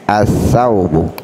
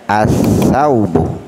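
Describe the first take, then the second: Both takes have the same delivery.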